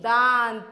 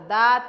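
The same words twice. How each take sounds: First: The vowel is said with nasalization. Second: The vowel is said without nasalization. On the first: The speaker calls it right. "दांत कहते हैं हम" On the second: The speaker calls it wrong. "दांत नहीं"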